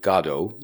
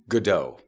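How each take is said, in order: First: Godot is said the British way, sounding like God. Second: Godot is said the American way, sounding more French. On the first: "I presume he pronounced it Godot, like, you know, the English usually say" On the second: "Americans usually say Godot"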